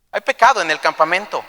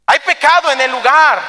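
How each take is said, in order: First: Said in the usual way. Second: High, loud pronouncement; forceful declaration. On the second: Acted. God answering Joshua about sin in the camp, forceful. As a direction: proclaim the charge with preacher's force.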